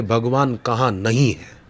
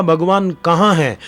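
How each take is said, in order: First: Composed, settled counter-question; Prahlad. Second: Raised, louder challenge of a demon king; Hiranyakashipu. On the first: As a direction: answer the challenge evenly, without raising the voice. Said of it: "Prahlad बोलते थे". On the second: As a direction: throw out the question high, as a challenge. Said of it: "Hiranyakashipu बोलता था". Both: Retold or imitated.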